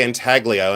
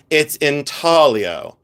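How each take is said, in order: First: Intaglio with a hard G sound in the middle. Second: It's intaglio said slowly, with the G dropped, in-TAL-io; mock posh correction, intaglio without the G; slow, haughty It's intaglio with no G; snooty silent-G intaglio. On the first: Shown as a demonstration. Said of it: "I say it with a hard G". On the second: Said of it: "they tip their top hat to me".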